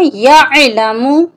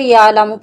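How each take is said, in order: First: A throat consonant follows 'ya' before the 'l'. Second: The throat consonant is dropped, giving a long vowel. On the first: The speaker calls it right. "इसकी सही अदायगी है यअलमु, या को हम आइन के साथ मिलाकर पढ़ेंगे" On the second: The speaker calls it wrong. "अक्सर लोग इसे यालमु पढ़ते हैं जो कि गलत है"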